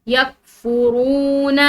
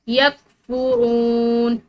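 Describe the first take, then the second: Both takes have the same delivery.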